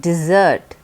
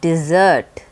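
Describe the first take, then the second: Both takes have the same delivery.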